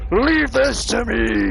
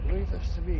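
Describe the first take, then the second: First: The voice sounds loud, shouting close to the ear. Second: The voice sounds distant, as if from behind. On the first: The voice seems to be right in the listener's ear. The speaker calls it wrong. "he's in your ear shouting" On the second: The voice seems to come from behind the listener. The speaker calls it right. "it sounds like Drax is behind you"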